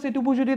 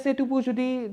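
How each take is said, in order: First: It is spoken at a normal speed. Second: It is spoken slowly.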